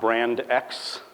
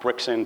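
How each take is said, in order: First: It is said as two words, brand ex. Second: It is said as one word, brixend. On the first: "it's not brand X" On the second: "it's not Brixend, which is like by far my least favorite"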